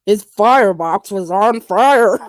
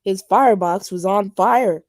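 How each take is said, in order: First: Slow, punched "His firebox was on fire"; incredulous, spelling out each word of "on fire"; exasperated emphasis. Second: Said in the usual way. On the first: Real, not acted. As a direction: hammer FIREBOX and FIRE, drawn out. Repeats complaint with mock outrage.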